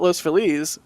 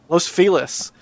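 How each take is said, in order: First: Feliz is pronounced as in Spanish. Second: Feliz is pronounced with an English sound. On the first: "I call it Los Feliz because you know Feliz Navidad" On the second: "I guess L A people say Los Feliz"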